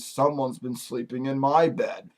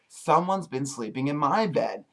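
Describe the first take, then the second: First: It is said in a plain, ordinary voice. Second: It is said in a sweet little voice.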